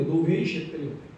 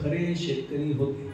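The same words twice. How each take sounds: First: Said in the usual way. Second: खरे drawn out slowly with weight; stress on genuine. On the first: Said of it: "हल्ली सांगावं लागतं". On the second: Shown as a demonstration. Preacher to audience, stressing खरे slowly. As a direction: lean hard on खरे, slower pace. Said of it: "हल्ली सांगावं लागतं, खरे शेतकरी होते".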